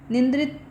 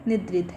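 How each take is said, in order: First: A nasal sound comes before the 'dr'. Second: No nasal sound comes before the 'dr'. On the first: The speaker calls it wrong. "निंद्रित क्या क्या है" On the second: The speaker calls it right. "निद्रित है"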